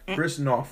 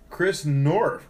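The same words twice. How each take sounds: First: The surname is said without an R sound. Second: The surname is said with an R sound. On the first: The speaker calls it right. "No R" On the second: The speaker calls it wrong. "Let me pronounce that right"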